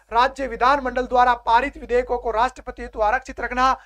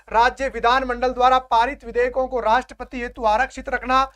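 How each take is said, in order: The two takes are said the same way.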